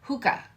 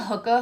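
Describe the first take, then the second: First: "Hookah" with a long oo, hoo-kah, pitched higher; corrected hookah. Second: "hookah" with a short oo, sounding like "hooker"; accidental New York "hooker". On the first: Shown as a demonstration. Correcting herself for viewers, "Hookah" with a careful long oo. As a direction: say "Hookah" with the long oo, fixing the slip. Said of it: "like I just said hooker". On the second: Real, not acted. Reading a tarot card to viewers, "hookah" slips into "hooker". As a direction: let "hookah" slip out as "hooker". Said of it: "like I just said hooker with a New York accent".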